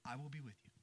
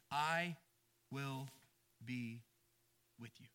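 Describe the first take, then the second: First: The promise said again, much softer and unbroken; soft repeat. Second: Each word set apart by long pauses; slow spaced promise. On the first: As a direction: drop it to a near hush. Promise repeated after the pauses. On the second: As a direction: let every word land alone, slowly. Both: Acted.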